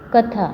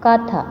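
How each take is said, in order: First: The first vowel is short. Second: The first vowel is long. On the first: The speaker calls it right. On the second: The speaker calls it wrong.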